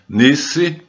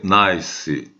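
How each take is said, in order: First: The vowel is a long 'ee' sound. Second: The vowel is an 'eye' sound. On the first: It names the French city. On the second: It is the English word for pleasant.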